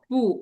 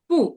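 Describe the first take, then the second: First: The syllable is said with the third tone. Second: The syllable is said with the fourth tone. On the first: "third term কি হবে?" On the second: "ও fourth term."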